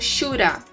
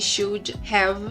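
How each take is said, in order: First: Have is reduced to a short uh sound. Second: The word have is pronounced in full. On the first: "A gente pode encontrar ele também como shoulda" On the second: "contrair esse should have"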